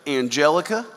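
The name is said with American English pronunciation.

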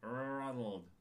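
It is said in an American accent. The speaker calls it wrong. "That's so American"

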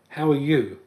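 The word you is strongly stressed. It is a sincere invitation to share openly. "he said it with the emphasis on the word "you.""

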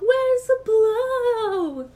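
It is said in an exaggerated, annoying voice. "In the most annoying voice"

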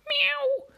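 A small, cute kitty cat meow.

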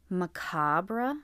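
The word is said the British English way. "That's apparently how British English speakers would say it"

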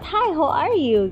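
It is said with a native English intonation. The speaker calls it right. "intonasinya tuh dapat hi how are you"

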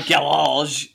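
It is said the American, French-like way. "we say it like we're fucking French or something here"

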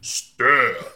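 It is said in a deep voice.

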